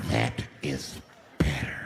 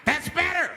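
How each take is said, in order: First: Very low, drawn-out satisfaction; menacing approval. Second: High, sharp bark of approval; approving offender. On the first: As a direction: drop way down and space out the words. Offender repeats it, crowd quiet. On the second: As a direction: call it out high like a man in control. Offender approves of obedient crowd. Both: Acted.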